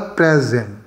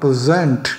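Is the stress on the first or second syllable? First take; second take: first; second. First: The stress is on the first syllable. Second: The stress is on the second syllable.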